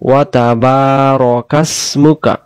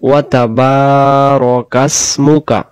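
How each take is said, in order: Both takes have the same delivery.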